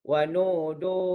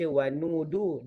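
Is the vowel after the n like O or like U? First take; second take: O; U. First: The vowel after the n sounds like O. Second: The vowel after the n sounds like U. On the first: The speaker calls it wrong. "Tetapi dia baca dengan huruf O" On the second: The speaker calls it right. "Sepatutnya dibaca wanudu dengan huruf U"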